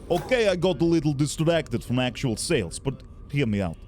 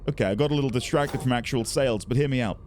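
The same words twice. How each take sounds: First: It is read in a put-on Russian accent. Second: It is read in the speaker's ordinary accent.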